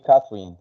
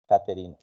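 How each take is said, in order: First: Catherine said the English way, in two syllables; English "Catherine", middle vowel dropped; English pronunciation. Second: Catherine said the Spanish way, with a hard t; Spanish "Catherine", every syllable sounded; Spanish pronunciation. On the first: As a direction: say Catherine as KATH-rin, English style. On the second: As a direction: say Catherine as ka-te-RIN. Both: Shown as a demonstration. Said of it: "In English, you say Catherine".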